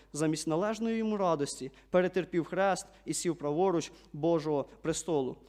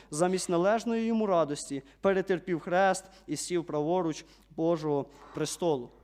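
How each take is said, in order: No difference in how they are said.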